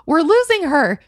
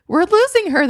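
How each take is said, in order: First: Higher, louder alarm; urgent alarm. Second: Much higher, louder cry; more urgent alarm. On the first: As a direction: raise the alarm. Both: A narrator's reading. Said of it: "repeated in urgency".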